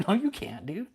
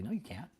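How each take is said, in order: First: Laughing and higher, louder; a laughing no, you can't; laughing retort. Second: Said in the usual way. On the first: Real, not acted. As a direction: laugh it out in disbelief. Repeats it, laughing.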